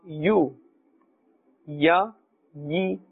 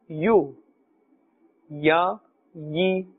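The two takes are said the same way.

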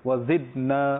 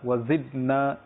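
Both takes have the same delivery.

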